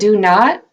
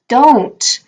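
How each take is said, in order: First: Both words 'do not' are said in full. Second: 'Do not' is shortened into one syllable, 'don't'.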